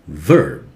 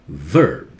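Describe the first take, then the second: Both takes have the same delivery.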